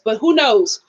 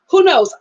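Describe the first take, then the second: First: Said in the usual way. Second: Higher, louder who knows; emphatic shrug. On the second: Shown as a demonstration. Vlogger repeats her doubt to viewers, emphatic shrug. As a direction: toss it off with a shrug.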